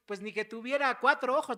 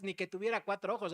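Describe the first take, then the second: First: Loud, indignant "ni que tuviera cuatro ojos"; loud mock exasperation; exasperated retort. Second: "ni que tuviera cuatro ojos" rattled off fast; fast, dismissive shrug of a line; quick offhand excuse. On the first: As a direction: throw out "cuatro ojos" loudly, fed up. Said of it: "A veces nosotros decimos". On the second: Retold or imitated. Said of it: "No, pues es que yo te estaba poniendo atención".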